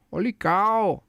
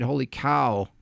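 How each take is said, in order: First: High-pitched, drawn-out "cow"; big comic holy-cow exclamation; exaggerated amazement. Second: Said in the usual way. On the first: Real, not acted. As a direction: play up the astonishment, voice leaping up.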